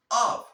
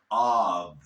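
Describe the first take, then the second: First: Off said high and loud with crisp F; double F sound. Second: Of said low and loud, ending in V; of as "ov", voiced and drawn out; single F sound. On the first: Teacher contrasting spellings, off high with hard f. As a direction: end off on a sharp unvoiced "f". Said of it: "se pronuncia". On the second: Teacher contrasting spellings, of low with buzzing v. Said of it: "cuando tiene una sola F". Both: Shown as a demonstration.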